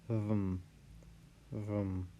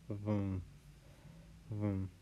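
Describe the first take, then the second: Both takes have the same delivery.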